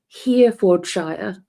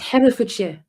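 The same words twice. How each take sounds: First: It is said with an American pronunciation. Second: It is said with a British pronunciation. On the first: The speaker calls it wrong. "I had an American and they were saying Herefordshire" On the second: The speaker calls it right. "It's Herefordshire"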